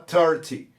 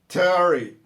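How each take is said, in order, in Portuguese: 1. O T no meio é pronunciado claramente. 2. O T é omitido, e o R emenda no final. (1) "Não é proibido, ele pode falar thirty" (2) "matando o T e passando o R direto"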